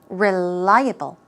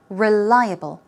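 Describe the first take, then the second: Both takes have the same delivery.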